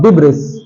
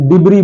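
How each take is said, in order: First: The final s is pronounced. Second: The final s is silent. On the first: The speaker calls it wrong. "It's not डिब्रिस" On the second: The speaker calls it right. "उसे हम डिब्री बोलते हैं"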